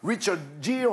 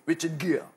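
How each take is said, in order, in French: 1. Le nom se prononce à la française. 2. Le nom se prononce à l'anglaise. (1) "quand on dit Richard Gere, on a l'impression d'être euh, top anglais. C'est pas du tout comme ça" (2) "ça se prononce"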